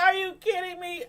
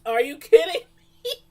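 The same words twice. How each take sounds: First: A high, half-crying incredulous whine; mock disbelief. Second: Much louder, higher incredulous outburst; mock disbelief. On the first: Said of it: "I'm like". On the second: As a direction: belt out your disbelief. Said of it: "I was like".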